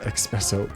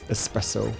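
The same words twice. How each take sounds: First: The word begins with an 'ex' sound. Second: The word begins with an 'es' sound. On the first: The speaker calls it wrong. "It is not espresso" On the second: The speaker calls it right. "like it is espresso"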